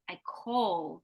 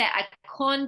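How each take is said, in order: First: The word ends with an L sound. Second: The word ends with an N sound. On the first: The speaker calls it right. "but we need I call" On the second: The speaker calls it wrong. "You're doing a mm instead of a l"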